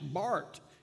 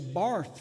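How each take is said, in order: First: The name ends with a plain t sound. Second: The name ends with a th sound. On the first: The speaker calls it right. "it's pronounced Bart" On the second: The speaker calls it wrong. "he'll say Barth forever"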